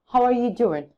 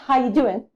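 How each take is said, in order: First: The word 'are' is clearly pronounced. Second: The word 'are' is dropped entirely. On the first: The speaker calls it right. "Maybe it should be how are you doing" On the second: The speaker calls it wrong. "not how you doing"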